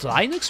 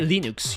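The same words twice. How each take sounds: First: The word is pronounced the English way. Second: The word is pronounced the French way. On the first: "in English it's Linux" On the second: "we say Linux, you know, in French"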